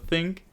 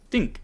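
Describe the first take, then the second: First: It is said with a standard English accent. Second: It is said with an Italian accent. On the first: This is how it is usually said. "instead of think" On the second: This is how some Italians say it. "the way that like Italians sometimes say think is like think"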